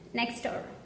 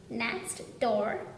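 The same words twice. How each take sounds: First: The T at the end of next is dropped. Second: The T at the end of next is pronounced.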